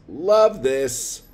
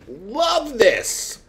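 First: It is said flatly, without excitement. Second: It is said excitedly, with real enthusiasm.

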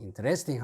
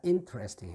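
First: The stress falls on a later syllable. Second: The stress falls on the first syllable. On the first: The speaker calls it wrong. "interesting 하면 안 됩니다" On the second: The speaker calls it right. "이내 강세 써야죠. ... interesting 해야 돼요"

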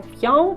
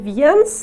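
First: The final s is silent at the end. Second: The final s is pronounced at the end. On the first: The speaker calls it right. "а «в'ян»" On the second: The speaker calls it wrong. "не «в'єнс»"

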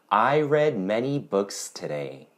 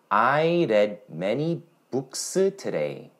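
First: Books ends cleanly on a voiceless s sound. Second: A vowel is added after the final s.

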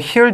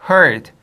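First: The vowel sounds like the vowel in 'hear'. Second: The vowel sounds like the vowel in 'her'. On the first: The speaker calls it wrong. "이거 heard 아니야?" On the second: The speaker calls it right. "heard야"

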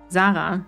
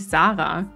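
First: The name is pronounced the German way. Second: The name is pronounced the English way.

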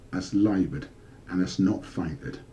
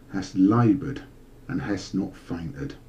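No difference in how they are said.

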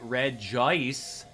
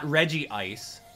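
First: The name is said without a doubled vowel. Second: The name is said with a doubled vowel. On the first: The speaker calls it right. "it's just Regice" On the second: The speaker calls it wrong. "some of you guys like to pronounce with a double I"

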